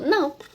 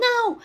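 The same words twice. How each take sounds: First: It is said calmly and softly. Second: It is said loudly and furiously.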